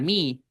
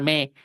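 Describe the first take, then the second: First: The vowel is a long close 'ee' sound. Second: The vowel is a short open 'eh' sound. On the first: The speaker calls it right. "Va a sonar mi" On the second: The speaker calls it wrong. "no va a sonar me"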